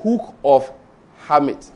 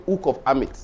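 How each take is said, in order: First: "Hamit" in two deliberate words after "Hook of", with its H breathed; H pronounced. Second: "Amit" opens straight on the vowel, the H left off; dropped H. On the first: Shown as a demonstration. Giving the correction he was taught, H sounded on "Hamit". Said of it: "The correct pronunciation is". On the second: Retold or imitated. Quoting his own student slip to the audience, dropped H on "Amit". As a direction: say "Amit" with no H at the start. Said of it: "I did not pronounce check properly".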